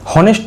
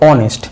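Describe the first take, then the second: First: The word begins with an h sound. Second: The word begins with no h sound. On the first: The speaker calls it wrong. "হনেস্ট তো আমরা বলবো না" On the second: The speaker calls it right. "অ এর মতো উচ্চারণ হলো"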